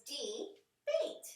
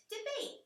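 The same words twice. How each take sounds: First: Slow modeled word. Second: High repeat. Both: Shown as a demonstration. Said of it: "the next word that we have is debate".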